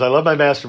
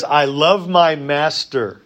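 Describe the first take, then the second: First: Said in the usual way. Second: Slow solemn vow. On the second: Acted. Reads servant's vow slowly.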